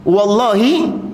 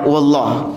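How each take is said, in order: First: The final vowel is clearly pronounced. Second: The final vowel is dropped. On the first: A full, explicit oath is sworn. "kalau ditegesi" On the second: The oath is deliberately left vague. "Disembunyikan sama dia"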